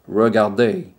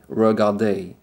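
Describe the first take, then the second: First: The R is made the English way. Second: The R is made the English way.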